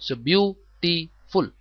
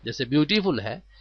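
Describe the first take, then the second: First: ब्यूटीफुल drawn out slowly as bew-tee-ful, each of its three syllables clear; slow teacher model of ब्यूटीफुल; beautiful said slowly. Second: Said in the usual way. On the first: Shown as a demonstration. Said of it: "अल्फाज की अदायगी किस तरह करनी है". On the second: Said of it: "अब सैड में एक सिलेबल है".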